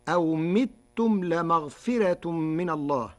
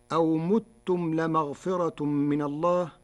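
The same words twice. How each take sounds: First: متم read as mitum, first m with i; Warsh pronunciation. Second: Said in the usual way. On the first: Shown as a demonstration. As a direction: say متم with kasra on the first meem. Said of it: "بكسر الميم الأولى". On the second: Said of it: "قرأ ورش كلمتي متم بكسر الميم الأولى".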